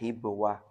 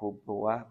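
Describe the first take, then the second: First: The first vowel is a front 'i' sound. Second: The first vowel is a rounded 'u' sound. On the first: "wa kasriha" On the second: "bi dhammil ha'i"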